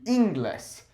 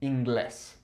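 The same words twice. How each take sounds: First: "inglés" stressed on its first syllable, IN-gles. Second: "inglés" stressed on its final syllable, in-GLES; stress on last syllable. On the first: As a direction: hit the IN of "inglés", leaving the ending weak. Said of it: "accent would fall on the second to last vowel". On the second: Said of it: "we put a new accent on there". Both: Shown as a demonstration.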